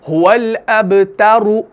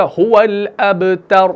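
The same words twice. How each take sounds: First: अबतरु with a clear short u at the end; final vowel sounded. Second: अबतर ending on a silent, fully stopped r; full stop, no vowel. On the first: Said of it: "इस तरीके से". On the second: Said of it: "मुकम्मल साकिन करें तो ये बनेगा". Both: Shown as a demonstration.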